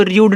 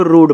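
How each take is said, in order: First: रूड said as "ryood", with a y-glide; wrong pronunciation. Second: रूड as "rood", no y-glide; correct pronunciation. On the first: Teacher shows students the misreading of rude, रूड with a y-glide. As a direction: slip a y between r and oo in रूड. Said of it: "नहीं पढ़े". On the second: Teacher corrects the reading of rude, रूड without a glide. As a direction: say रूड with r going straight into oo. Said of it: "इसको रूड पढ़ेंगे". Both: Shown as a demonstration.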